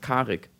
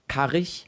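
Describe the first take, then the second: First: The name ends in a hard k sound. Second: The name ends in a soft ch sound. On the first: The speaker calls it right. "ohne die deutsche weiche IG-Endung" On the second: The speaker calls it wrong. "Vor allem sagen wahrscheinlich verdammt viele Leute Karich"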